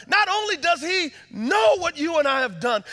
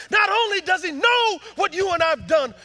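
First: "Not only does he know" preached high and loud; preaching. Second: "not only does he know" shouted even louder, rising on "know"; preaching shout. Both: Acted. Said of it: "repeated line, second louder".

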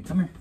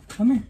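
First: Said in the usual way. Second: Higher, sing-song come here; high coaxing voice. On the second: Real, not acted. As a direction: coax the word here up high. Lifting child from truck.

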